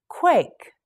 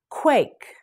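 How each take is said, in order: First: Whispered word. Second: Said in the usual way. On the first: Shown as a demonstration. Teacher models word twice.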